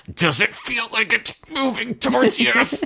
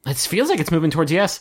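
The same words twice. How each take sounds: First: High, drawn-out put-on voice; mock séance voice. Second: Said in the usual way. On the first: Mock spooky Ouija board question.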